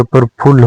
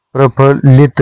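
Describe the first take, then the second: First: प्रफुल्ल ending on l; no it after प्रफुल्ल; correct form. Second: प्रफुल्लित with an it ending; wrong form. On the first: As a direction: stop प्रफुल्ल at phull. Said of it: "होता है". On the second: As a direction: finish प्रफुल्लित on lit. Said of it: "नहीं होता". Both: Shown as a demonstration.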